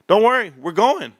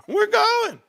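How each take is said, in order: First: Said in the usual way. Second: Much higher, squeaked we're going; squeaky repeat. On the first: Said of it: "reassuring viewers". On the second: Pretend. Promising viewers the stock will run, squeaky and playful.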